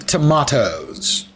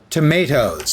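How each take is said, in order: First: Tomatoes is said in a non-American pronunciation. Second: Tomatoes is said in an American pronunciation.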